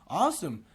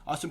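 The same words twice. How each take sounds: First: It is said slowly with a warm, curious tone. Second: It is said in a flat, mechanical way. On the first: The speaker calls it right. "slow things down, and you want to sound like you're actually curious" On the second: The speaker calls it wrong. "That sounds very robotic"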